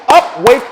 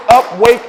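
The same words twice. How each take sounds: The two takes are said the same way.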